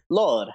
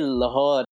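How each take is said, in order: First: The h sound is silent, replaced by tone. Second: The h sound is clearly pronounced. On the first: The speaker calls it right. "it's Lore" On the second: The speaker calls it wrong. "when people say Lahore, it's not how it's said"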